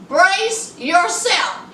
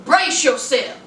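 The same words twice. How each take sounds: First: "Brace yourself" drawn out slowly, word by word; emphatic warning. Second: Said in the usual way. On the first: Real, not acted. Host warning viewers that it comes, slow and emphatic. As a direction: stretch BRACE and YOURSELF apart.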